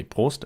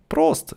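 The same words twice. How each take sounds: First: Prost spoken plainly with a rise. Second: Prost loud with a long o; German toast. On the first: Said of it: "You say Prost". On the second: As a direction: shout Prost as a cheers. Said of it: "say cheers in German". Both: Shown as a demonstration.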